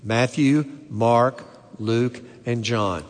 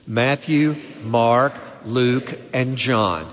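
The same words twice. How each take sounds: First: It is said plainly, with mild conviction. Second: It is said forcefully, with strong conviction.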